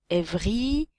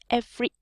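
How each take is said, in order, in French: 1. Chaque voyelle est prononcée pleinement et distinctement. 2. Les voyelles non accentuées sont réduites et avalées. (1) "si on fait vraiment quelque chose de très, euh, très français" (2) "l'idée, c'est vraiment de faire"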